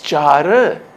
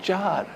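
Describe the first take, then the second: First: The last consonant is given extra emphasis. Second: The last consonant is said plainly, without emphasis. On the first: The word is a numeral adjective. The speaker calls it right. "It's char" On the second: The word has a different meaning. The speaker calls it wrong. "not char, which has a different meaning"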